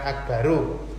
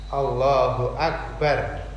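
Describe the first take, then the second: First: The word ends with an added u vowel. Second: The word ends on a bare r consonant. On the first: The speaker calls it wrong. "bukan akbaru" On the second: The speaker calls it right. "huruf ra-nya dibaca mati"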